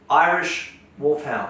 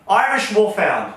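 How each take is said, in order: First: It is said quietly, in a reading tone. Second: It is said loudly, with more force.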